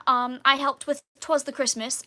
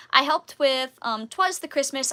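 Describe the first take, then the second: First: Lightly put-on British accent. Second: Said in the usual way. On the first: Shown as a demonstration. Listing past shows for viewers, still in British accent. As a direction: keep up the stagey British voice. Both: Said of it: "I can turn off the British accent now".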